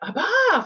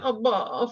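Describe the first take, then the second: First: The word is said with a joyful tone. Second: The word is said with a disappointed tone. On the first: The child is happy. "Abba for joy" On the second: The child is let down. "Abba for disappointment"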